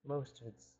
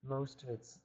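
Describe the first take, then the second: No difference in how they are said.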